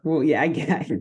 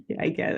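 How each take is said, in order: First: Said in the usual way. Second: Breathy whispered repeat; a soft mock whisper of the same words. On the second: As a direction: drop to a joking whisper. Repeats the line, then whispers it.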